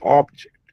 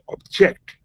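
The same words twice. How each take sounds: First: The stress is on the first syllable. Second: The stress is on the second syllable. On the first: It is a noun meaning a thing. "Object is a noun" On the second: It is a different word with another meaning. "the moment you give the emphasis on the second syllable"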